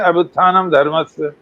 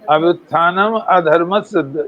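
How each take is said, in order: First: No vowel is heard before 'dharmasya'. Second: An 'a' vowel is heard before 'dharmasya'. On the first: Unrighteousness rising is misheard as righteousness rising. The speaker calls it wrong. "हम क्या कहते हैं?" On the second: Unrighteousness is rising. The speaker calls it right. "यही सही है"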